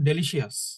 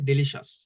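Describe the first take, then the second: First: The ending is said as two syllables, 'shee-us'. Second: The ending is said as one syllable, 'shus'. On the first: The speaker calls it wrong. "আমরা বাংলা বাংলাদেশে যখন English বলতাম তখন বলতাম ডেলিশিয়াস, এরকম বলতাম" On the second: The speaker calls it right. "কিন্তু এটা হবে ডেলিশাস"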